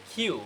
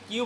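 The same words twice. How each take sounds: First: কিউ said "khiu", with a puff on K; airy K in কিউ; aspirated pronunciation. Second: Said in the usual way. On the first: Shown as a demonstration. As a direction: breathe out on the start of কিউ. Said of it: "এখন বলতে হচ্ছে". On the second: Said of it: "আমরা এতদিন কিউ বলতাম".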